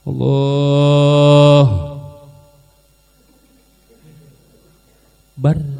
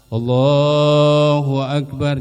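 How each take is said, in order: First: The phrase is cut off in the middle. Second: The phrase flows on without any break. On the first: The speaker calls it wrong. "kalau putus setengah" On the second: The speaker calls it right. "Takbir tidak boleh putus, dia bersambung terus"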